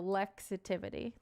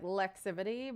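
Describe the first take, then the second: First: The name is said with five syllables. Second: The name is said with four syllables. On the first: The speaker calls it right. "That's how that's how you would pronounce it" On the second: The speaker calls it wrong. "some people say like Lexivity, but that's not it"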